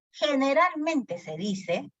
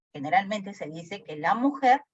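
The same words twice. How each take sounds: First: High, slow and drawn out; first take of the repeated phrase, slow and high; slow emphatic take. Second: Said in the usual way. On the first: Shown as a demonstration. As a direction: stretch it out to stress the point. Teacher restates point slowly.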